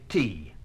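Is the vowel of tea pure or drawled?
pure. The vowel is short and pure. The speaker calls it right. "could possibly say tea?"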